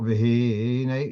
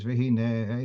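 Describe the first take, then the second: First: V'hinei stressed early, on the hi; V'hinei with the middle syllable stretched; wrong early stress. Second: V'hinei stressed on the final nei; V'hinei with the last syllable drawn out. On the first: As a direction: lean slowly on the hi in V'hinei. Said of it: "it's not V'hinei". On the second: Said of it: "at the last syllable". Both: Shown as a demonstration.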